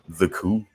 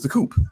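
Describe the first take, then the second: First: The word ends in a vowel with no P sound. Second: The word ends with a clear P sound.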